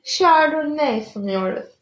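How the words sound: The phrase is said with a lilting, melodic tune. The speaker calls it right. "Böyle melodik bir tarafı olsun istemiştim"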